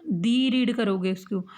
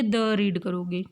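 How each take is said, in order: First: दी said with a long ee; thee with long ee. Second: द said short as thuh. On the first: Teacher answering herself about vowel words, long ee. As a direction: stretch the दी. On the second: Teacher answering herself about consonant words, short uh. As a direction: clip the द short. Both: Shown as a demonstration. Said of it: "उसको क्या read करोगे".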